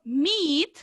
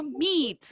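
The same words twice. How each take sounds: First: Meet with the i held a little longer; long vowel meet. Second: Meat with a clipped short i sound; short vowel meat. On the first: Teacher contrasts meet with meat for the class, long vowel. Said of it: "si yo alargo esa I un poquito más". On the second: Teacher contrasts meat with meet for the class, short vowel. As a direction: keep the i in meat short and dry. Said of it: "Es como seco, sin alargar la I". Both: Shown as a demonstration.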